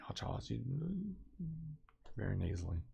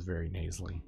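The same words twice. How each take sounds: First: Much softer, lightly imitated mother; friend's mother. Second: Said in the usual way. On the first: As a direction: quietly mimic a friend's mom's critical remark. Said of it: "just like that. She would just say it like that". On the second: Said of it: "just like that".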